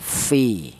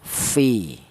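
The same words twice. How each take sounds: First: The vowel is short, only one beat. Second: The vowel is short, only one beat.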